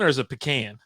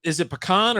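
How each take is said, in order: First: Pecan, second syllable like "can"; "pecan" ending like "can", not "kahn"; pecan as puh-CAN. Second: Pecan with an open "ah" at the end; "pecan" rhyming its last syllable with "on"; pecan as puh-KAHN. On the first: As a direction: say pecan with a short flat "a" as in can. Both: Shown as a demonstration. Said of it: "is it pecan or is it pecan".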